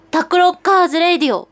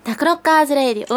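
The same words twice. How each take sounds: First: High-pitched cutesy title call; キャピキャピ. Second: Attempted sexy title call, slightly raised pitch; 色っぽい. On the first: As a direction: play it bubbly, as if showing off how cute you are. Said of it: "なんかもうキャピキャピした感じ。". (高い声でキャピキャピしたタイトルコール) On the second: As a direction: have a go at a sultry jingle read. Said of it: "色っぽいね。". (色っぽさを狙ったタイトルコール) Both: Shown as a demonstration.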